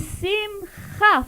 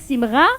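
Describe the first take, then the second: First: The middle consonant is a throaty kh sound. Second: The middle consonant is a French-style R. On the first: The speaker calls it right. "Faut que ça vienne du fond de la gorge" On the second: The speaker calls it wrong. "ne dites pas Simra"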